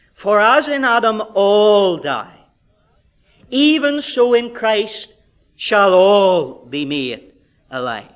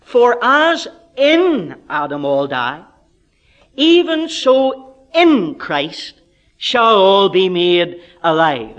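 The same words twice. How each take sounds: First: Slow, loud reading that leans hard on "all"; heavy, deliberate emphasis on the word "all"; stress on ALL. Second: Slow, loud reading that punches "in"; heavy, deliberate emphasis on the word "in"; stress on IN. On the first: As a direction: punch "all" each time, drawn out. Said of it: "I'm emphasizing that little word, all". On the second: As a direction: lift and stretch "in" each time, setting it apart. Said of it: "emphasizing the word in". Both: Shown as a demonstration.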